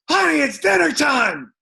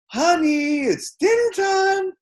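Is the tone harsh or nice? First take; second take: harsh; nice. First: It is said in a harsh, unfriendly tone. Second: It is said in a warm, nice tone. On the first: An irritated or unfriendly summons. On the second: A friendly call to come eat.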